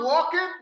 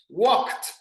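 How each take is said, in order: First: The ending adds an extra vowel syllable. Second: The ending is a single T sound. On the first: The speaker calls it wrong. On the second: The speaker calls it right.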